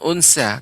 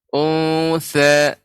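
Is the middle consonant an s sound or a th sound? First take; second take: s sound; th sound. First: The middle consonant is a plain s sound. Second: The middle consonant is a soft th sound. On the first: The speaker calls it wrong. "bukan un- unsa ... Kalau unsa itu di tengah" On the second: The speaker calls it right. "tapi unsa, sa, sa, lidah dengan gigi seri atas"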